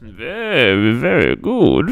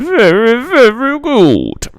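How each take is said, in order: First: Said in the usual way. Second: Very high and very loud, slowly stretched; booming drawn-out praise. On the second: Pretend. Streamer hyping his rugby stream, booming high drawn-out praise. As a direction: belt "Very, very good" like a big hype call, dragging it out. Same catchphrase, second take.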